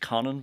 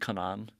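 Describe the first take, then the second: First: The name's final vowel is short. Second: The name's final vowel is long. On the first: This is the northern way the name is said. "I think it's Conan because of where I'm from in the island" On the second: This follows the Irish accent mark in the spelling. "It probably should be Conan"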